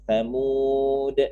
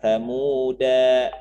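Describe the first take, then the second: First: The word ends on a consonant. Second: The word ends with a short vowel. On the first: The speaker calls it right. "tapi samud" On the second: The speaker calls it wrong. "bukan samuda"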